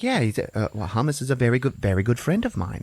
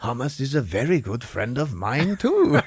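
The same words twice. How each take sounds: First: Slightly raised, earnest character; lightly voiced, hurried explanation; a hint of a fussy character; Bagel. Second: Higher, sing-song character voice; hammed-up delighted discovery; Lavash. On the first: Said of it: "And he's like". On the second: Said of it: "He's like".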